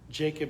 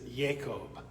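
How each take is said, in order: First: The name has its English pronunciation. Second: The name has its Hebrew pronunciation. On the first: "the anglicized version" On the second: "that's the Hebrew pronunciation"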